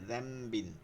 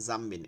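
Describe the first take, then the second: First: The word begins with a 'dh' sound. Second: The word begins with a 'j' sound. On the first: The speaker calls it right. "জিব্বার আগাটা সামনের উপরে দুই দাঁতের আগার সঙ্গে লাগায়" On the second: The speaker calls it wrong. "এখানে জাম্বিন হবে না"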